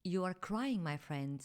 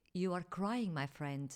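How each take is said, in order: Both takes have the same delivery.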